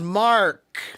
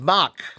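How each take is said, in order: First: The R sound is clearly heard in the name. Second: The R sound is dropped from the name. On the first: The speaker calls it right. "My name is not Mock. My name is Mark" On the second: The speaker calls it wrong. "If you skip the sound of R, then my name is not Mark. My name is Mock"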